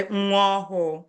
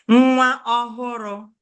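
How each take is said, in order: First: Nwa ọhụụ with no r, just a long final vowel; variant pronunciation. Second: Said in the usual way. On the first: Shown as a demonstration. Teacher showing students how some people say it, variant pronunciation. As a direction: say nwa ọhụụ, running the ending into one long u. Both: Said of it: "Some people say".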